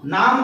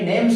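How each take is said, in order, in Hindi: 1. स्वर एक लंबी, खुली 'ah' ध्वनि है। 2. स्वर 'ay' ध्वनि है। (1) "और नाम तो होगा नहीं" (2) "नेम शब्द तो सुना ही होगा"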